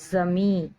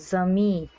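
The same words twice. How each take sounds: No difference in how they are said.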